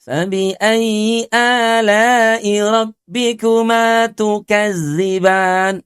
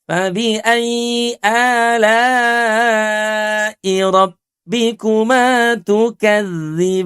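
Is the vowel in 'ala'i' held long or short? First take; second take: short; long. First: The vowel in 'ala'i' is held only briefly. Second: The vowel in 'ala'i' is held noticeably long. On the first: The speaker calls it wrong. "sudah alaknya cuma dua harokat, ala kadarnya gitu ya" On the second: The speaker calls it right. "Kita panjangkan empat harokat"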